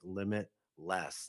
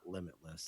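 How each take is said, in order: First: There is a short break between limit and less. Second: It is said smoothly as one unbroken word. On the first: The speaker calls it right. "it's got a space in it" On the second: The speaker calls it wrong. "not limitless"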